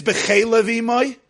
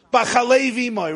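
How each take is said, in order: First: "Bechele", eh sounds replacing the ah; alternative vowels "Bechele". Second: "Bachalei", ah vowel in the opening syllable; first reading "Bachalei". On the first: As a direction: say "Bechele Vimoy" with e vowels, be-CHE-le. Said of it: "how to pronounce many of the words". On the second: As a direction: say "Bachalei Vimoy" with an a after the B. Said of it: "Maybe it's "Bechele Vimoy". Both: Shown as a demonstration.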